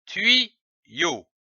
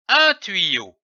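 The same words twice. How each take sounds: First: "tuyau" split in two, tui, yau, with a pause; syllable by syllable. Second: Said in the usual way. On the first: Shown as a demonstration. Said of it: "L'association de ces deux syllabes". (« tuyau » en deux syllabes détachées) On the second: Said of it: "donne le mot".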